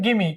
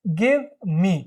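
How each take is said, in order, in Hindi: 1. v की ध्वनि पूरी तरह छोड़ दी जाती है। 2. v की ध्वनि साफ़ तौर पर उच्चारित होती है। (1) "वी को हटा देंगे" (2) "गिव मी को शॉर्ट में"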